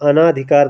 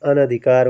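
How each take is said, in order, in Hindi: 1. दूसरे अक्षर में दीर्घ स्वर है। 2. दूसरे अक्षर में ह्रस्व स्वर है। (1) "अना कोई उपसर्ग नहीं होता है" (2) "अना वाला गलत हो जाएगा अनधिकार होगा"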